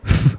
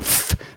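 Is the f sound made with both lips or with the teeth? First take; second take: both lips; teeth. First: The f is a soft puff through narrowed lips. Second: The f is made with teeth on the lip. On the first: The speaker calls it right. "also so ein Pusten. Pusten mit schmalen Lippen" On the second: The speaker calls it wrong. "so wie wir das machen mit den Zähnen"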